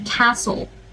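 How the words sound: It is said in an American accent. "If you want to say it in American"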